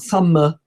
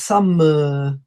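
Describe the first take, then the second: First: The ending is short and clipped. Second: The ending is drawn out a little longer. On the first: The speaker calls it wrong. "It's not summer" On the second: The speaker calls it right. "We actually make it a little bit longer"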